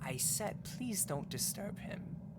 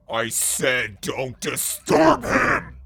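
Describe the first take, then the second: First: It is said in a normal, calm voice. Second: It is shrieked in a deepened voice.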